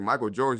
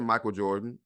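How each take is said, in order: First: Incredulous repeat of "Michael Jordan?" with a rising tune; surprised echo. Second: Said in the usual way. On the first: Retold or imitated. Echoing the mother's answer in disbelief, a rising question. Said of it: "I was like". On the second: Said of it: "She said".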